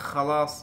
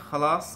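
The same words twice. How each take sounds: The two takes are said the same way.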